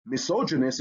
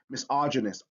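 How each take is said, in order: First: "misogynist" with a long O, mi-SOH-juh-nist; wrong vowel demo. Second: "misogynist" with an open AH, mi-SAH-juh-nist; correct vowel demo. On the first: Teacher shows how not to say misogynist, long O. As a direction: say the second syllable of "misogynist" as "soh". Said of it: "So it's not misogynist". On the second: Teacher corrects the word misogynist, open AH vowel. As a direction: say the second syllable of "misogynist" as "sah". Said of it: "it's misogynist". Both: Shown as a demonstration.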